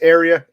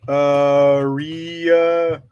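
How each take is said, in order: First: It is said like the word 'area'. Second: It is said like 'Maria' without the M. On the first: "like the word area, like an area code" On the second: "like Maria without the M"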